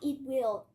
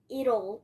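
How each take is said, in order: First: Two full separate words are said. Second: The words are contracted into one short form. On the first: The speaker calls it wrong. "No, you're going. It will" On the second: The speaker calls it right. "It's like almost little"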